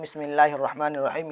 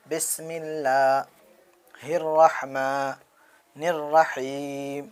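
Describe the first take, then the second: First: Said in the usual way. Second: Slow, drawn-out recitation with pauses. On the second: Shown as a demonstration. Teacher reciting slowly for children to repeat. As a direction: recite it slowly for students to copy. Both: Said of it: "چلیے پڑھیے میرے ساتھ".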